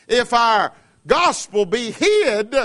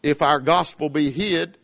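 First: Stretched, emphatic reading of hid; slow verse. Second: Said in the usual way. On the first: Acted. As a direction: draw out hid. Verse repeated slowly.

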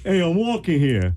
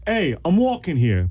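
First: High, slow New York pedestrian's protest; New York accent. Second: High, drawn-out New York holler; New York accent. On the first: Guest repeating accent on host's request, exaggerated New York. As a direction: holler it like an indignant New Yorker. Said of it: "Do that again". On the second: Guest showing host his accent, exaggerated New York. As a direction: play the indignant New York pedestrian. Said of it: "Now, I can do it". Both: Shown as a demonstration.

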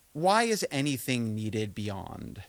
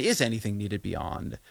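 First: "why" drawn out slowly; slow question weighted on "why"; stress on why. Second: "is" emphasized as the doubt; stress on is. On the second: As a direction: punch "is" to reopen the question. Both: Real, not acted. Rewording own question, shifting emphasis.

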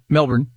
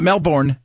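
First: Melbourne said MEL-bn, the end cut short; Melbourne the local way, the ending nearly swallowed; Melbourne with a short schwa ending; right Melbourne. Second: Melbourne said Mel-BORN, the r sounded; Melbourne the American way, the end drawn out as born; Melbourne with a full -born ending; wrong Melbourne. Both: Shown as a demonstration. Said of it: "not Melbourne".

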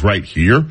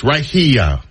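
First: Said in the usual way. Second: "here" said as hee-uh, two syllables falling. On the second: Shown as a demonstration. Host showing how Angie says "here" as hee-uh. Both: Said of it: "it's a two syllable word".

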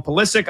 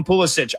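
First: Pulisic ending in a hard k; broadcasters' surname pronunciation. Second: Pulisic ending in an "itch" sound; alternative surname pronunciation. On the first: Co-host copies the broadcast team's way, Pulisic ending in -ick. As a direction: say Pulisic as "puh-LISS-ick". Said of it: "I always hear the broadcast team". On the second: Co-host quotes how some people say the name, Pulisic ending in -itch. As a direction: say Pulisic as "PULL-ih-sitch". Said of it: "Some people call him". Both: Shown as a demonstration.

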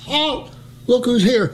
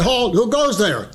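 First: High repeated sentry shout; high mock shout. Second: Said in the usual way. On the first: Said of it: "I says". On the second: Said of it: "you're supposed to say".

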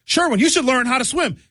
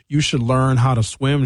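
First: High, singsong advice; mocking people who tell him to learn to swim; mock nagging voice. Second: Said in the usual way. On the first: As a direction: talk down to Sherwin like a pushy helper. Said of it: "people saying". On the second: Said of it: "Linda says".

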